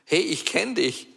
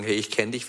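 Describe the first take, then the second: First: Höher, freudig angesprochen wie von einem Fan; freudiges Wiedererkennen. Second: Said in the usual way. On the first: Retold or imitated. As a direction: ein Fremder erkennt ihn freudig. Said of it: "anzusprechen und sagen". (Fremde auf der Straße sprechen ihn an, freudig erkennend) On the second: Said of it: "dass die Leute sagen".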